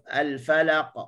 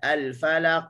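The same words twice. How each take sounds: First: The final q is released with a light bounce. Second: The final q ends with a glottal stop. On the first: The speaker calls it right. "tu baru lantunan" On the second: The speaker calls it wrong. "tu baru bunyi hamzah"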